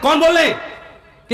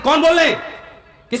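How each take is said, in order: First: It is said in a harsh, stern tone. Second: The same.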